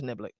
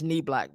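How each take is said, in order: First: The name begins with a short 'nib' sound. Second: The name begins with a long 'knee' sound. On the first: This is how the other person says it. The speaker calls it right. "I think you're right. I think it's Niblick" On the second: This is how the speaker usually says it. The speaker calls it wrong.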